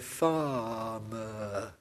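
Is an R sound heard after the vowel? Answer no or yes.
no. No R sound is pronounced after the vowel. "I say farmer, with no R sounds at all"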